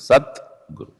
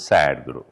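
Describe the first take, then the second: First: The two parts are split with a 't' sound. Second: The two parts join with a 'd' sound. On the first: The two parts are kept separate. "Otherwise, it is split, it is sat guru" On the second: The two parts are fused into one compound. "when it is sandhified, it becomes sad guru"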